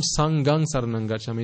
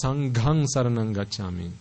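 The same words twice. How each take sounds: First: "Sanghang" with unaspirated g; mispronounced "Sanghang". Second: "Sanghang" with aspirated gh; correct "Sanghang". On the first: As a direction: keep breath out of the g in "Sanghang". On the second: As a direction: lean on the breathy gh of "Sanghang". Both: Shown as a demonstration. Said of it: "It's not".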